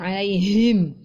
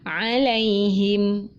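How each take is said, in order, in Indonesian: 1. Suaranya turun rendah ke dada. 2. Suaranya tetap di nada normalnya. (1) "tidak sampai turun ke dada menjadi alaihim" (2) "tetapi alaihim"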